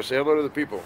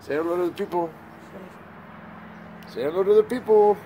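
First: Said in the usual way. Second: Pitched way up, sing-song coax to the dog; baby-talk to a dog, high and bright; high coaxing pet voice. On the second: Shown as a demonstration. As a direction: coo at the puppy, voice lifted high. Coaxing dog to greet camera.

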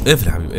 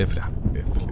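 First: Said in the usual way. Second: Softly whispered plea. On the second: Real, not acted. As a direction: whisper it to the tap. Repeats, whispered. (همس ناعم)

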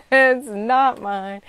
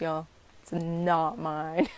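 First: Laughing it out loud and higher; a burst of laughter, then the words. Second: Said in the usual way. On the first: Real, not acted. To her viewers, laughing with relief.

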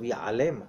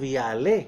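First: יעלם read as ya'alem, closing on a clear m; the written word יעלם, final m sounded; correct reading. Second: יעלה read as ya'ale, ending in an open ah; the misreading יעלה with a vowel ending; wrong reading. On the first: Rabbi gives the correct written reading, ya'alem with a closing m. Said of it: "כתוב יעלם". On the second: Rabbi contrasts the wrong reading for students, ya'ale said plainly. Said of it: "לא כתוב יעלה". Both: Shown as a demonstration.

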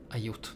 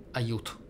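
The two takes are said the same way.

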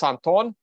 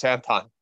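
First: "Anton" said the Russian way, the stress and vowels of a Russian name. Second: "Anton" said the English way, with English stress and vowels. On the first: Explaining his real name to viewers, "Anton" said the Russian way. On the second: Explaining his name to viewers, "Anton" said the English way. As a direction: say "Anton" as an English speaker would say it. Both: Shown as a demonstration. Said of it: "Just the accent's different".

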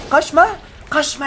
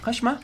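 First: High, louder shout of Kaçma; loud taunt. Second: Said in the usual way. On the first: Real, not acted. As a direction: yell Kaçma at the fleeing enemy.

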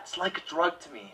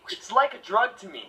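First: Quiet pained murmur, softer; more pained, quiet. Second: Mock pained Edward. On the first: Edward impression, more pain than that. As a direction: hold in the pain as you speak. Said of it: "More pain than that". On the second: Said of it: "talk real quietly and sound like you're in pain". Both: Shown as a demonstration.

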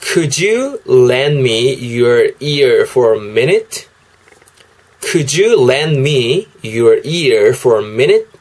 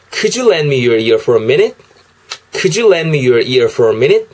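First: Slow, word-by-word "Could you lend me your ear for a minute?"; teacher modelling "Could you lend me your ear for a minute?"; slow English demo. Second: "Could you lend me your ear for a minute?" with linked sounds; teacher showing linking in "Could you lend me your ear for a minute?"; linked English demo. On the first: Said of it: "영어로는 이렇게 하시면 되겠습니다". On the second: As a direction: run "Could you" together as "kudju" and link "lend me". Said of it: "빠르게 이제 연음을 넣게 되면요". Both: Shown as a demonstration.

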